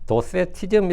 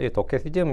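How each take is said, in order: First: The second consonant is an s sound. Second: The second consonant is a k sound.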